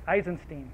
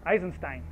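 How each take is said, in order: First: Put-on Eisenstein said EYE-zen-steen, ending like "teen"; first attempt at Eisenstein, ending "steen". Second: Eisenstein said EYE-zen-stine, ending like "line"; second attempt at Eisenstein, ending "stine". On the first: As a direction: try Eisenstein with a final "steen" sound. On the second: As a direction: correct Eisenstein to a final "stine". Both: Shown as a demonstration. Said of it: "I always pronounce his name wrong".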